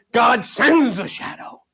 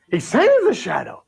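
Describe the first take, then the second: First: "sends" said slowly and weighted; stress on sends. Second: Said in the usual way. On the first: Shown as a demonstration. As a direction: kata "sends" ditekan pelan dan berat, seluruh frasa diperlambat.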